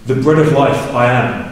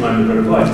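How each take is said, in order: First: "The bread of life" first, then a separate "I am"; reversed word order. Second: "I'm" said lightly, weight on "the bread of life"; stress on bread of life. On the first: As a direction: put "The bread of life" up front and land on "I am". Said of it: "the emphasis changes". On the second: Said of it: "the emphasis is on the bread of life". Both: Shown as a demonstration.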